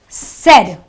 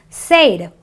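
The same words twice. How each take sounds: First: The vowel is a short eh sound. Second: The vowel is a long ay sound. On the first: The speaker calls it right. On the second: The speaker calls it wrong.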